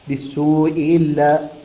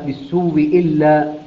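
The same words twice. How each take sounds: First: The first hamza is softened between hamza and vowel. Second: The first hamza becomes a doubled w with i. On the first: "تسهيلها" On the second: "فيصير النطق بواو مشددة مكسورة هكذا"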